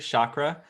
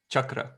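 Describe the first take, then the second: First: It is said with an American pronunciation. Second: It is said with an Indian pronunciation.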